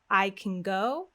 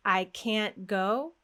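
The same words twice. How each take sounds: First: Quick weak I CAN, long GO; fast-fast-slow rhythm. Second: Long stressed CAN'T, long GO; fast-slow-slow rhythm. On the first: Teacher contrasting the two rhythms, unstressed CAN. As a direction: reduce CAN to k'n and stress GO. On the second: Teacher contrasting the two rhythms, stressed CAN'T. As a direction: hold CAN'T as a full slow beat. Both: Shown as a demonstration. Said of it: "the rhythm is different".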